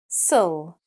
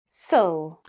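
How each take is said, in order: No difference in how they are said.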